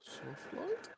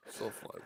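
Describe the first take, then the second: First: High, soft rising "light"; high question. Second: Said in the usual way. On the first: Real, not acted. Co-host checking a setting, high questioning voice. Asks, then confirms setting.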